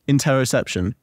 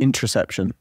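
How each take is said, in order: First: All syllables are said, including the middle 'o'. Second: The middle 'o' is dropped, shortening the word. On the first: This is the intended word. The speaker calls it right. "what are you trying to say?" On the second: It sounds like a word about birth control. The speaker calls it wrong. "what did you say you were saying? ... when I'm saying it fast"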